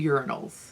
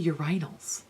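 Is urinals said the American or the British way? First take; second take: American; British. First: It uses the American pronunciation, like urine. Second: It uses the British pronunciation of the word. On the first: "we say urinals in the U S because we say urine" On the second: "Why do you say urinals?"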